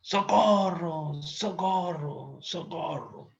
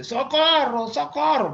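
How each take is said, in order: First: Long drawn-out, high call for help, fading away; slow, high-pitched mock distress call; acted cry for help. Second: Loud, very high acted yell of a name; comic mother's shout, high and forceful; mother calling daughter. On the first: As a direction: stretch the word out like a far-off cry. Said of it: "están gritando". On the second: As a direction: holler for someone in another room. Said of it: "era la mamá que decía a la hija".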